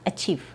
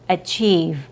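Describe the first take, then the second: First: It ends in a blurred, F-like sound. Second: It has a long E and a clear V. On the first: The speaker calls it wrong. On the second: The speaker calls it right.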